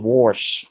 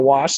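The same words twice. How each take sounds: First: The word is said with an added R sound. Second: The word is said without any R sound. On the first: This is how an older relative says it. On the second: This is the usual way to say it.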